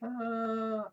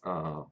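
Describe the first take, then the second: First: The 'ah' sounds doubtful and disbelieving. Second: The 'ah' sounds let down and disappointed. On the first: The speaker does not believe what was said. "I don't believe you" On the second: The speaker is let down by something.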